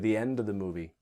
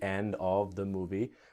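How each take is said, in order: First: It is said at normal, fast speed. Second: It is said slowly and carefully.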